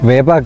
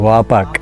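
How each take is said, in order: First: The first vowel sounds like 'way'. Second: The first vowel sounds like 'wah'. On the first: The speaker calls it wrong. "వేపాక్ కాదు" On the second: The speaker calls it right.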